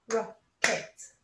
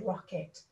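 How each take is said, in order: First: "Rocket" broken into two clapped beats, rock-et. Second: Said in the usual way. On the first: Shown as a demonstration. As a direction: say "Rocket" syllable by syllable with a gap between. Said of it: "It's got two beats". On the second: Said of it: "clap the word rocket".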